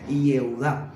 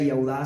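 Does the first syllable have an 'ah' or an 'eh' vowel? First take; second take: eh; ah. First: The first syllable has an 'eh' vowel. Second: The first syllable has an 'ah' vowel. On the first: This is the modern form of the name. "sino Yeudá" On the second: This is the older form of the name. "llevaba Yaudá"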